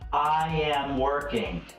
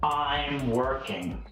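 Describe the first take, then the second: First: The first two words are said fully and separately. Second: The first two words are merged into one syllable.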